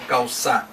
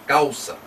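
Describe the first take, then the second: First: The stress is on the last syllable. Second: The stress is on the first syllable. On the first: The speaker calls it wrong. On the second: The speaker calls it right.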